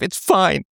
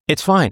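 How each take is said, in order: First: It is said in a resentful, passive-aggressive tone. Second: It is said in a calm, accepting tone. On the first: The speaker is still upset but hides it. The speaker calls it wrong. "Not like that passive aggressive" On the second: The speaker has truly let the matter go. The speaker calls it right. "You're just okay with it"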